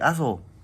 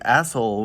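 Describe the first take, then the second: First: It is said with a lisp, like Axel. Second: It is said plainly, without a lisp.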